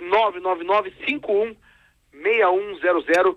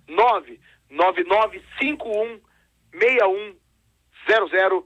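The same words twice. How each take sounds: First: The number is said fast. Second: The number is said slowly.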